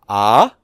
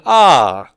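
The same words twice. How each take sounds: First: The pitch rises. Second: The pitch rises and then falls. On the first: "indicating a rising tone" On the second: "a combination of rising and falling tone"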